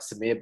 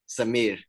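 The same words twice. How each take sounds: First: The r sound is plain, not rolled. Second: The r sound is rolled. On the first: The speaker calls it wrong. "A lot of people say like Samir" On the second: The speaker calls it right. "You got to roll it up"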